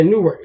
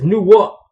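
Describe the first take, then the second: First: Said in the usual way. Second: "Newark" with the R dropped, like "Noo-wuk"; local New Jersey pronunciation. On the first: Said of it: "they ain't gonna say Newark". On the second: Shown as a demonstration. Driver showing how locals say their city, local pronunciation of "Newark". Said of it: "They gonna say Newark".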